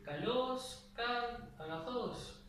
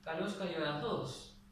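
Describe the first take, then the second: First: "kalos kai agazos" with every word pitched up high, slow and drawn out; mock wrong reading with all acute accents. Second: "kalos kai agazos" with only the last word rising, the first two kept level; right pitch accent. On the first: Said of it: "el griego no decía". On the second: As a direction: correct grave-accent reading at normal pace. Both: Shown as a demonstration.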